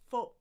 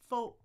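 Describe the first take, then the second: The two takes are said the same way.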